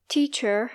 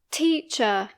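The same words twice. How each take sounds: First: TEACHER said American, final R sounded; American rhotic R. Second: TEACHER said British, final R silent; British non-rhotic R. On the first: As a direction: curl an R at the end of teacher. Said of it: "in American English". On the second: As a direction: end teacher on uh, with no R. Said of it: "teacher in British English". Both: Shown as a demonstration.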